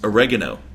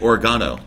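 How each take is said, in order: First: It is pronounced the American way. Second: It is pronounced the British way. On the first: This is how Americans say it. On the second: This is how the British show says it.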